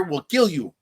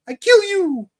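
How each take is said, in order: First: Said in the usual way. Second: Very high, loud cartoonish threat; mock threat. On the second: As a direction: squeal it as a hammed-up threat. Hammed-up repeat of retold threat.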